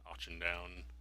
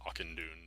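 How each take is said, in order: First: The last syllable rhymes with down. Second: The last syllable rhymes with moon. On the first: The speaker calls it wrong. "not Auchendown" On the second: The speaker calls it right. "that's how you pronounce that"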